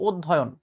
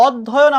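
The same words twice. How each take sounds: First: "অধ্যয়ন" opening on closed o, od-dhoyon; correct pronunciation. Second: "অধ্যয়ন" higher, opening on aw; common pronunciation. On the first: Teacher giving the real form, "অধ্যয়ন" with closed o first. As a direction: round the first vowel of "অধ্যয়ন" to o. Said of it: "বাস্তব উচ্চারণ হবে". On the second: Teacher quoting how we say it, "অধ্যয়ন" with open aw first. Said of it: "আমরা বলছি". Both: Shown as a demonstration.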